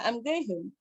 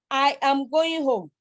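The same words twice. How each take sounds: First: Said in the usual way. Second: Slow, each syllable of I am going home evenly stressed; every syllable stressed. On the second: Shown as a demonstration. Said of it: "you now have".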